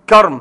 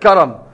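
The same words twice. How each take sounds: First: The middle consonant has no vowel after it. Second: The middle consonant is followed by a vowel. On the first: "بالتسكين" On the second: "وأيضا بالتحريك"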